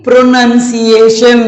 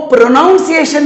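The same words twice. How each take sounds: First: प्रोनंसिएशन slow and clear, "nun" not "noun"; प्रोनंसिएशन spelt out slowly with a short "uh" in the second syllable; correct pronunciation. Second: प्रोनाउंसिएशन with an "ow" sound, pro-NOUN-ciation; प्रोनाउंसिएशन said as pro-naun-si-ay-shun; wrong pronunciation. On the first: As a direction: model प्रोनंसिएशन slowly as pro-nun-si-ay-shun. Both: Shown as a demonstration. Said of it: "वो प्रोनाउंसिएशन नहीं".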